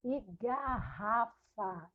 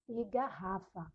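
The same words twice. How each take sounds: First: Slow, careful reading of e garrafa; slow model reading. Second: Said in the usual way. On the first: Shown as a demonstration. Teacher reading the word slowly to her class. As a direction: read e garrafa slowly so pupils hear each sound. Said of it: "e garrafa (slow model reading)". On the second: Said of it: "e garrafa (second reading)".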